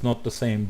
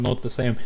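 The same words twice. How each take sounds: The two takes are said the same way.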